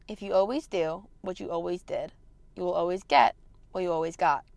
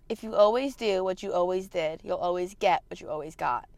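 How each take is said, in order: First: It is said slowly. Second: It is said at a normal speed.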